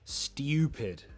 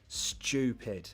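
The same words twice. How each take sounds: First: The t is said like 'ty', as stew. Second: The t is said like 'ch', as chew. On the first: It sounds posh. "Some people pronounce it like that. ... that sounds more posh" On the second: It sounds less posh. "The way I pronounce it would be with the ch"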